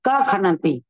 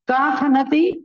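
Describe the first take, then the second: First: No h sound is heard after ka. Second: An h sound is heard after ka.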